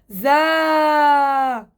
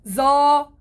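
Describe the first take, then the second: First: The z sound is light, with the tongue kept low. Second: The z sound is heavy, with the tongue raised back. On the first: The speaker calls it right. "حرف الزاي مستفل، حكينا مساره بده يكون للأسفل" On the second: The speaker calls it wrong. "يعني إني أنا فخم حرف الزاي"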